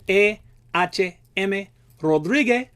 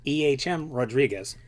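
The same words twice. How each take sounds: First: It is said in a Cuban Spanish accent. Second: It is said in an American English accent. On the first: "if you were in Hialeah or Havana, you would pronounce this gentleman's name" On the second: "or for our American friends"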